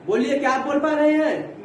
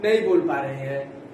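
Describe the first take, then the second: First: Said in the usual way. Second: नहीं said low and firm; stress on नहीं. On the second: Shown as a demonstration. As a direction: drop low on नहीं, answering yourself.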